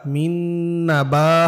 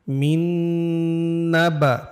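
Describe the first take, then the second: First: মিন নাবা with a short, crisp বা. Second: মিন নাবা with the বা wrongly drawn out, very slowly; stretched ba. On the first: Teacher correcting the student, বা in নাবা kept short. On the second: Student reciting slowly, বা in নাবা stretched too long. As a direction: drag out the বা in নাবা. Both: Shown as a demonstration. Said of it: "এখানে বাতে টান হবে না".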